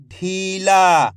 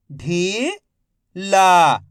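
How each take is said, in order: First: "ढीला" joined as one word, long vowels; syllables blended. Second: "ढीला" split into ढी, pause, ला, each drawn out; syllable by syllable. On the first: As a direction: say "ढीला" in one connected stretch. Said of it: "तो मिलके बन जाएगा". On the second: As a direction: sound out "ढीला" slowly, ढी rising, ला falling. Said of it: "एक एक अक्षर का उच्चारण". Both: Shown as a demonstration.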